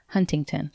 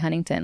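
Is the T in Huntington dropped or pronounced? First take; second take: pronounced; dropped. First: The T in Huntington is clearly pronounced. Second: The T in Huntington is dropped, local style.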